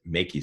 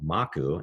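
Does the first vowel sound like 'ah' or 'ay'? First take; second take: ay; ah. First: The first vowel is a long 'ay' sound. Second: The first vowel is a short 'ah' sound. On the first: It reads as the phrase 'make you safe'. "giving the A the, the long sound" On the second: It is the Hawaiian word for risk. "is Hawaiian for risk"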